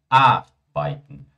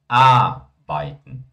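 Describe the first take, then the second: Both takes have the same delivery.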